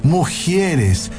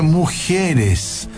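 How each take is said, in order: Both takes have the same delivery.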